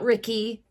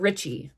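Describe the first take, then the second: First: The double C is not a ch sound. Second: The double C is a ch sound. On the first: The speaker calls it wrong. "not Ricky" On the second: The speaker calls it right. "you would pronounce the double C as C H"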